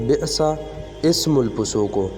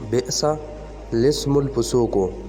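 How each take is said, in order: First: The middle word starts without an L sound. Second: The middle word starts with an L sound. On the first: The speaker calls it wrong. "ज़्यादातर लोग इसको बोलते हैं" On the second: The speaker calls it right. "ये है बेसा लिस्मुल फुसूको"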